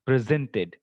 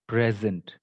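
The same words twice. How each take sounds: First: "Presented" stressed pre-ZENT-ed, as a verb; weak first syllable, strong ZENT in "Presented"; stress on second syllable. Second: "present" stressed on PRE, as a noun; stress on first syllable. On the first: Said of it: "The stress will be on the second". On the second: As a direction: lean on the PRE of "present", weak second syllable. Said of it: "the stress will be on the first part". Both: Shown as a demonstration.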